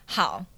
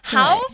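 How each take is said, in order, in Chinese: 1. 这个“好”是用不爽的语气说的。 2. 这个“好”是用开心的语气说的。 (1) "这就是很不爽的好" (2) "这个就是很开心的好"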